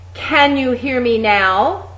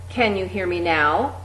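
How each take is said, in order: First: It is belted out at full volume. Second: It is said at a moderate loudness. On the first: "Really belt that out" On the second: "getting progressively louder each time"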